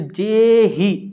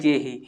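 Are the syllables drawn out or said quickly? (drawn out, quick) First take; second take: drawn out; quick. First: The syllables are drawn out and long. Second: The syllables are said short and quickly. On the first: The speaker calls it wrong. "जे ही इस प्रकार से नहीं पढ़ते हो" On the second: The speaker calls it right. "कितनी जल्दी आप पढ़ देते हो"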